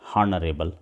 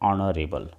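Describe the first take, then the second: First: The word begins with an audible h sound. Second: The word begins with a vowel, no h. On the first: The speaker calls it wrong. "असं म्हणत नाही आपण" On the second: The speaker calls it right. "उच्चार जो आहे, pronunciation जे आहे ते अशा पद्धतीने करायचं असतं"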